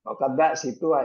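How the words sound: The break falls right after muqadda. The speaker calls it wrong.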